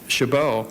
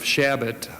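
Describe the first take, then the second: First: The surname is pronounced the French way. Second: The surname is pronounced the English way. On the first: "or the French pronunciation" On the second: "as one with the surname of"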